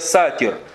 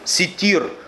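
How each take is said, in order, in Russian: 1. Первая гласная — звук 'a'. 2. Первая гласная — звук 'i'. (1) "Сатир — это не имя Аллаха Субханаху ва Тааля" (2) "Одно из имен Аллаха Субханаху ва Тааля — ситир"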